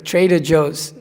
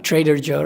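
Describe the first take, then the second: First: JOE'S ending in a z sound; final S on JOE'S. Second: JOE said without an S at the end; no final S. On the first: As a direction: say "Joe's" with the possessive S. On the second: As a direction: say "Joe" bare, dropping the possessive S. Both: Shown as a demonstration. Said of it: "Not Trader Joe, right?".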